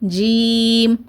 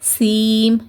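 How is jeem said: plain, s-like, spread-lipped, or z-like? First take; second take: plain; s-like. First: The first consonant is a plain, light j. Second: The first consonant sounds like an s. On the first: The speaker calls it right. "நார்மலாக சொல்லுங்கள்" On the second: The speaker calls it wrong. "எஸ் sound கொடுத்து"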